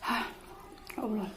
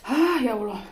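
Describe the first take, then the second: First: Soft gasp of a burning mouth; mouth burning from spicy food. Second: Sudden exclaim from the spicy heat; mouth burning from spicy food. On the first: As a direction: sigh it out, mouth on fire. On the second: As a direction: cry out as the chilli hits. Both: Real, not acted. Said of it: "Pedes banget".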